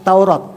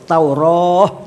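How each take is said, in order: First: It is shortened and ends with a t sound. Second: It is kept long and ends with an h sound. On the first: The speaker calls it wrong. "membaca Taurat begitu, dipendekkan" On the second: The speaker calls it right. "Jadi tetap dibaca marbutoh, Taurah begitu membacanya"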